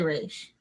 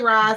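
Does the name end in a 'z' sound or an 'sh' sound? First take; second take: sh sound; z sound. First: It sounds like 'Raish', ending in an sh sound. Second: It sounds like 'Roz', ending in a z sound. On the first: "other people say Raish" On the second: "Some people say Roz"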